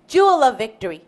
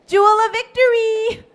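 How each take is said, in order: First: Said in the usual way. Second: High-pitched, lilting name call. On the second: Acted. Amy calls the girl by her long name, calling out. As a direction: sing out the name to summon a child.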